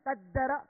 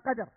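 First: The d sound is doubled. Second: The d sound is single. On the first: The speaker calls it wrong. "وليس بالتضعيف" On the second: The speaker calls it right. "وإنما"

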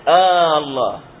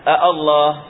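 First: It starts with one long drawn-out a vowel. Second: It starts with two separate glottal stops. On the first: The speaker calls it right. "فينطقونها ألف واحدة ممدودة" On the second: The speaker calls it wrong. "ما يقولون الله"

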